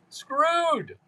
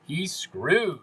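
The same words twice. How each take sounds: First: Word yelped much higher; high mock shriek. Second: Said in the usual way. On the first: Shown as a demonstration.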